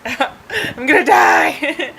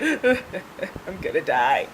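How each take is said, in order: First: Higher, slow drawn-out wail; hammed-up cry of doom; mock freaking out. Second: Slow, quiet mock whimper; mock freaking out. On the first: Driver on ambulance steps, wailing in mock panic. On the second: Driver on ambulance steps, quiet mock-panicked whimper. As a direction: whimper it weakly, playing up the dread. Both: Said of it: "I was still freaking out".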